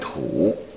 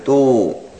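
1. 这个音节的声母是 t 音。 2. 这个音节的声母是 d 音。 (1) "这个不念土啊" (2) "念度啊"

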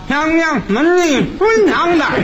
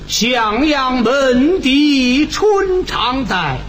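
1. 发闷，没有鼻腔共鸣。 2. 拖着音，鼻腔共鸣很重。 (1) "那要没鼻子唱这什么味儿呢？" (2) "你看这个鼻腔共鸣就用了"

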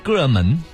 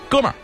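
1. 结尾是平的“men”音，不卷舌。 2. 结尾是卷舌的北京儿化音“er”。

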